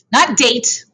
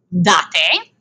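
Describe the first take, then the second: First: "date" said the English way, like a calendar date, one syllable. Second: "Date" as DAH-teh, both vowels sounded; Italian date. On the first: Teacher showing the wrong English "date", said DAYT. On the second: Teacher modelling the Italian "Date" as DAH-teh. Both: Shown as a demonstration.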